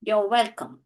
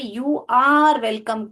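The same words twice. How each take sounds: First: The word 'are' is contracted into 'you're'. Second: The word 'are' is said fully and separately. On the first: "ऐसे बोलूंगी" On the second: "आर को पूरा बोलने"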